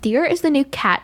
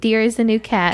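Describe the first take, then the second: First: It is said in a Regina George voice. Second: It is said in her own normal voice.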